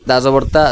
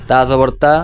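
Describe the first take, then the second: The two takes are said the same way.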